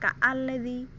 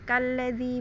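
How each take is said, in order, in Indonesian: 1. Vokal hamzah dilafalkan terpisah. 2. Vokal hamzah dihilangkan dan disambung.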